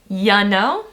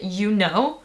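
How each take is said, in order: First: The word 'you' is reduced to a quick 'ya'. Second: The word 'you' has a full, clear vowel. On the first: The speaker calls it right. "we always pronounce it ya know" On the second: The speaker calls it wrong. "We don't pronounce it you know"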